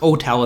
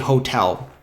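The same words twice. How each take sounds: First: The word starts without an h sound. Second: The word starts with a clear h sound. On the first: This is how the word was said in the past. "was pronounced hotel in the past" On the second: This is how the word is said today. "so now we uh, say hotel"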